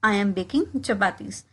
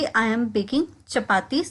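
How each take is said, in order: First: Slow, careful drill phrase; slowed classroom demo; slow model repetition. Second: Said in the usual way. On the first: Shown as a demonstration. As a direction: say it slowly for learners to copy. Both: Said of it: "इसको मैं कहूँगी".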